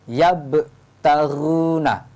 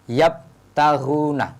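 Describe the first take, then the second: First: The b closes with an audible echo bounce. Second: The b closes with no audible echo bounce. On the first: The speaker calls it right. "harus ada pantulannya" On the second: The speaker calls it wrong. "Tidak boleh yabtaghuna"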